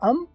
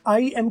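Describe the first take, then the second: First: It is said as one short reduced syllable. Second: It is said as two full separate words. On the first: "आप बोलोगे अम" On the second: "आई एम की बजाय"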